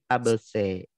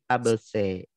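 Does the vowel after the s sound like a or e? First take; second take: e; e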